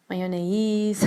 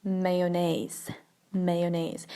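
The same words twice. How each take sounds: First: Mayonnaise as MY-o-nay-EEZ; mayonnaise with MY first and a long EEZ ending; wrong pronunciation. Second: Mayonnaise as MAY-o-nayz; mayonnaise starting with MAY, careful and even; correct pronunciation. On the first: Teacher quoting how many people say mayonnaise, mispronounced my-o-nay-eez. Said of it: "there's just so many ways". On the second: Teacher correcting learners on mayonnaise, careful may-o-nayz. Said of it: "it's mayonnaise". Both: Shown as a demonstration.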